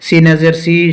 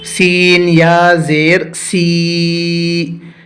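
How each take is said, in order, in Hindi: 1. हिज्जे जल्दी-जल्दी पढ़े गए हैं और छोटे करके काटे गए हैं। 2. हिज्जे धीरे-धीरे पढ़े गए हैं और खींचकर पढ़े गए हैं। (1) "हिज्जे करने में ... जल्दी करते हैं ... इस तरह से नहीं पढ़ना है" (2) "इस तरह से खींच कर पढ़ना चाहिए"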